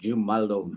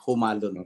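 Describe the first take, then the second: First: The name begins with a J sound. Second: The name begins with an H sound. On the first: This is how it is said in English. "sa English ay magiging jumalon" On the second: This is how it is said in the local dialect. "kung sa ating, ah, dialect, humalon po"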